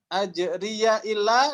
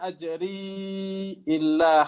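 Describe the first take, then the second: First: A voiced ya links into the next word. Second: A long i runs into the next word.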